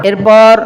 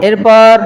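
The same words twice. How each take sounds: Both takes have the same delivery.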